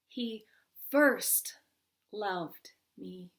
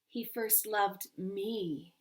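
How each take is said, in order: First: The stress falls on the word first. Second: The stress falls on the word me.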